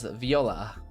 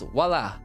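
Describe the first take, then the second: First: It is said like the word viola. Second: It is said the French way, vwah-la. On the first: The speaker calls it wrong. "I always want to say voila as viola" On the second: The speaker calls it right. "but it's voila"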